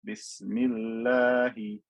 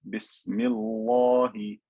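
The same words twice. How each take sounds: First: The l sound is light and thin. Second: The l sound is heavy and full. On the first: The speaker calls it right. "if there was a kasra before it" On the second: The speaker calls it wrong.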